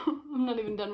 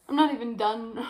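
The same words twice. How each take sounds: First: Tired laugh through the words. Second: Worn-out complaint, a bit louder; exasperated. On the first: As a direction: laugh at yourself while complaining. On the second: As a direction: groan it out, fed up. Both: Real, not acted. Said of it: "I'm exhausted".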